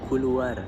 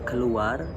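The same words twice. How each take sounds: First: The first vowel is a u sound. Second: The first vowel is a weak schwa.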